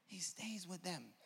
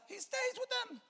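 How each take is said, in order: First: Soft, slow, savoring delivery; quiet, drawn-out statement; hushed repeat. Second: Very high, piercing preacher's cry; sudden soaring exclamation; exclaimed cry. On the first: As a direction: bring it right down and let it sink in. Same answer repeated softly after exclaiming. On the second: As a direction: shoot the answer way up high in triumph. Preacher's exclaimed answer, then repeated softly. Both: Real, not acted.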